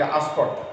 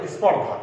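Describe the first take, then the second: First: আস্পর্ধা begun with an extra "a" before the s; added initial vowel. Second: Said in the usual way. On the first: Shown as a demonstration. Teacher showing students the common spoken form, আস্পর্ধা with a leading a. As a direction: open the word with a vowel, আস্পর্ধা. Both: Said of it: "আমরা অনেক সময় বলি".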